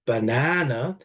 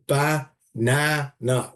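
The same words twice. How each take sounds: First: Banana said with the middle syllable stressed; banana stress demo. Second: Banana drawn out slowly with the middle syllable leaning hardest; slow stressed banana. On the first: Teacher demonstrating word stress on banana. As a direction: say banana tapping weak, strong, weak. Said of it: "So it would be something like". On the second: Teacher slowly modelling the stress of banana. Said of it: "would be banana". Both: Shown as a demonstration.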